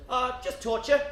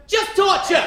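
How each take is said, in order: First: Said in the usual way. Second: Just torture shouted, higher and louder; mock shout. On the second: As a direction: bark out torture as a mock yell. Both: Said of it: "And she said".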